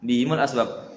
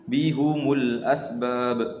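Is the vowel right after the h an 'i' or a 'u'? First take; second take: i; u. First: The h is followed by an i vowel. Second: The h is followed by a u vowel. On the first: "Haknya di kasra, mimnya di dhamma" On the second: "mendhamma ha dan mim"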